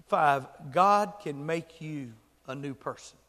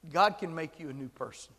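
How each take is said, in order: First: GOD punched loud, the sentence slow and measured; emphatic announcement. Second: Said in the usual way. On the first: Real, not acted. Preacher announcing the fifth fact, slow stress on "God". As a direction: land hard on "God", then pause before "a new person". Announces point, then restates it.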